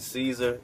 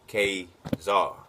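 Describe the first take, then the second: First: The word begins with an S sound. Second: The word begins with a hard K sound. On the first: The speaker calls it wrong. "You pronounce it Caesar" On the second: The speaker calls it right. "it is K"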